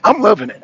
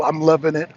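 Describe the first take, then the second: First: Gleeful. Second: Said in the usual way. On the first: Real, not acted. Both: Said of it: "The hypocrisy is real".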